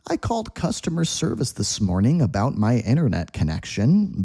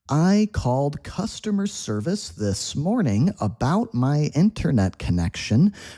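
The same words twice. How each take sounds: First: The sentence is spoken at a fast pace. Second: The sentence is spoken at a slower pace.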